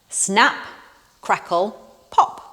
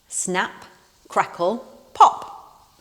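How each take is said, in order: Both takes have the same delivery.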